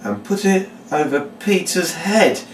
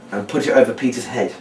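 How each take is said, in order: First: Slow, high, theatrical read-out; deliberate showman's instruction; reading the words. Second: Casual run-over of the step to oneself; understated recap while doing the action; recapping out loud. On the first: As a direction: announce the step with drawn-out suspense. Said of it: "just reading the words". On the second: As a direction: think the instruction aloud. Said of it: "you recap out loud". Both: Shown as a demonstration.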